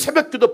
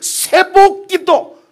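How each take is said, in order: First: The second syllable is said as 'byeok'. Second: The second syllable is said as 'bok'. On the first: Prayer at dawn. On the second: Prayer that receives blessing at dawn.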